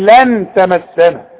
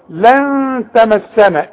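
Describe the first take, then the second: First: The n is pronounced clearly with the tongue. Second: The n is hidden and nasalized before the t. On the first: The speaker calls it wrong. "اوعى تضرب لسانك في حلق بقك وتظهر لي" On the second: The speaker calls it right. "يبقى اغن واخفي"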